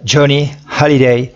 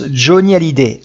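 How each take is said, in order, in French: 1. Le nom est prononcé avec un accent américain. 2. Le nom est prononcé avec un accent français. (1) "et pas Johnny Hallyday à l'américaine" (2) "à la française"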